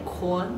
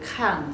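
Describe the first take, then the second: First: It is said with a rounded 'kuan' sound. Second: It is said with a plain 'kan' sound. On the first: "那我们粤剧话念这个看就是念宽" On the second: "念这个看"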